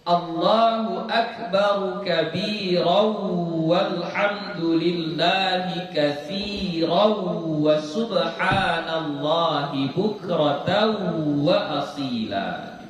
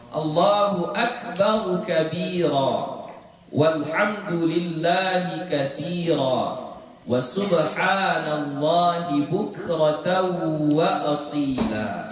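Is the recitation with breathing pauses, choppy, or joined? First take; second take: joined; breathing pauses. First: It flows joined, with the endings merged onward. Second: It stops between phrases, taking a breath each time. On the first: "Itu kalau bacanya disambung" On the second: "Berhentinya ambil nafas"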